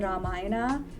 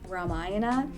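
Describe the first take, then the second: First: It is pronounced with an Indian pronunciation. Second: It is pronounced with an American pronunciation.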